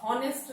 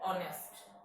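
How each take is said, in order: First: The word begins with an audible h sound. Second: The word begins directly with a vowel sound. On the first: The speaker calls it wrong. "इसको आप हॉनेस्ट नहीं पढ़िएगा" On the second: The speaker calls it right. "एच जो है यहाँ पे silent है"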